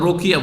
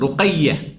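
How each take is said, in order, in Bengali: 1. 'y' ধ্বনিটি ছোট ও একক। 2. 'y' ধ্বনিটি টেনে ধরা ও দ্বিত্ব। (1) "রোকিয়া কোন নাম নেই" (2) "ওখানেও তাসদিদ আছে"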